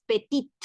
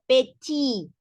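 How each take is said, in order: First: "petit" with a sounded final T; "petit" ending in a T; wrong petit. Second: "petit" said "peti", T silent; "petit" with no final T; correct petit. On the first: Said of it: "no es petit". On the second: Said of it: "La T final no suena". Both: Shown as a demonstration.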